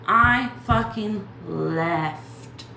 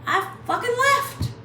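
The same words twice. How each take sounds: First: Each word "I fucking left" slow and separate; slow emphatic repeat. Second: Much higher, louder burst on "left"; triumphant outburst. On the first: Hammering it home to viewers, slow and emphatic. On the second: Bragging to viewers, high triumphant outburst. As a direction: fling out "I fucking left" high. Proud retelling of leaving. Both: Shown as a demonstration.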